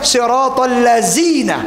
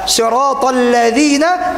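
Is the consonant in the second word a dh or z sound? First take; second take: z; dh. First: The second word has a z sound. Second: The second word has a dh sound. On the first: The speaker calls it wrong. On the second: The speaker calls it right.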